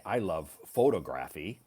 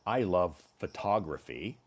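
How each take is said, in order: First: Photography stressed on the first syllable, FOH-to-gra-fee; learner's wrong photography, stress on FOH; mispronounced photography. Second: Photography stressed on the second syllable, pho-TOG-ra-phy; correct photography. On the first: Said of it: "you record that same sentence and say". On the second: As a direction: say photography as fuh-TOG-ruh-fee, stress on TOG. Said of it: "If I say". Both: Shown as a demonstration.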